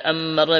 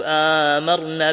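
First: أمرنا said "ammarnaa", with a held double m; short first a, then doubled m in أمرنا; doubled meem. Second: آمرنا said "aamarnaa", first a stretched slowly; long madd on the first a of آمرنا; long opening vowel. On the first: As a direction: lean on the m in أمرنا, "am-MAR-naa". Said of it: "بتشديد". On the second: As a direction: draw out the opening of آمرنا, single m. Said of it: "بالمد". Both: Shown as a demonstration.

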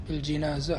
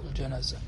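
First: بالجنازة with "ji", a short i; kasra on the jim. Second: الجنازة with "ja", a short a; fatha on the jim. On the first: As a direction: say بالجنازة as "bil-jinaza". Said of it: "بكسر الجيم". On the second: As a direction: say الجنازة as "al-janaza". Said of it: "بكسر الجيم وبفتح الجيم". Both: Shown as a demonstration.

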